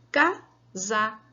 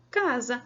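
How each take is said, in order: First: "Casa" broken into Ca, pause, sa; first syllable of "Casa" set apart and punched. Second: Said in the usual way. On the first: Shown as a demonstration. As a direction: count out "Casa" in two beats. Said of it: "São quantas?". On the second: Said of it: "mesma coisa na questão da palavra".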